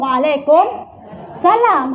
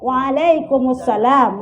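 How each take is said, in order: First: The words are said separately with a break. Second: The words are linked together without a break. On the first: "Kalau kita tidak sambung" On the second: "kalau kita sambung"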